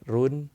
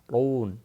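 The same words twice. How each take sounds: First: The r is pronounced thin and light. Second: The r is pronounced thick and heavy. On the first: The speaker calls it wrong. "Jadi bukan run, itu tipis" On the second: The speaker calls it right. "maka harus dibaca tebal"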